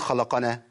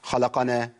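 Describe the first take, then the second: Both takes have the same delivery.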